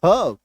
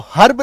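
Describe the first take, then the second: First: हर्ब as "huhb", no R at all; silent R. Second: हर्ब with the R sounded, "harb"; wrong full R. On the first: Teacher giving the correct form, हर्ब with silent R. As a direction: drop the R from हर्ब. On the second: Teacher warning against the mistake, हर्ब with full R. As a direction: put a clear R into हर्ब. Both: Shown as a demonstration. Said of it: "आपको हर्ब नहीं बोलना है".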